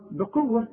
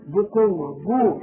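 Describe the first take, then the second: First: بقوة said "bi-quwwa"; b with kasra. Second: بقوة wrongly said "bu-quwwa"; u vowel after the b in بقوة; mistaken damma. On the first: Shown as a demonstration. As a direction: clear short i after the b in بقوة. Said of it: "ولازم تكسر الب". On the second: Retold or imitated. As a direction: mimic the error, rounding the b of بقوة to "bu". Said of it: "في ناس تقول لك".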